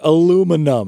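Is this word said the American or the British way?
American. It is said in an American accent. "you pull out the thing of aluminum foil and you're like"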